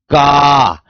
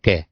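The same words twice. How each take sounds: First: "का" drawn out with loud, forceful stress; strong stress. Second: Said in the usual way. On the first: Shown as a demonstration. Teacher demonstrating emphasis to students, strongly stressed "का". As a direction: hit "का" hard and hold it long. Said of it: "इससे अधिक इस पर बल दूंगा". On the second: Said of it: "सामान्य रूप से पढ़ सकते हैं".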